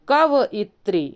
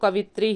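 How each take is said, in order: First: The word is said with a 'vay' syllable: kavayitri. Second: The word is said without 'vay': kavitri. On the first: The speaker calls it right. "पढ़ना क्या चाहिए हम लोगों को? कवयित्री" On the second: The speaker calls it wrong. "कवित्री पढ़ते रहेंगे तो कवित्री ही लिखेंगे"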